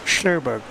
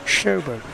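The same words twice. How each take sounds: First: Slowberg said as SHLOW-berg; wrong pronunciation. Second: Sjoberg said as SHO-ber; correct pronunciation. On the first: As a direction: say Slowberg with the English slow sound. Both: Shown as a demonstration.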